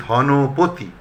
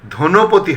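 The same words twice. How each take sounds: First: ধনপতি said slowly as "dhɔnopoti"; drawn-out open "dhɔ" opening ধনপতি; correct open vowel. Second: ধনপতি said as "dhonopoti"; closed "dho" opening ধনপতি; mistaken close o. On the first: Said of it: "হবে". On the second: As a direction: say ধনপতি with a rounded first o, "dho-no-po-ti". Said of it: "হবে না". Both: Shown as a demonstration.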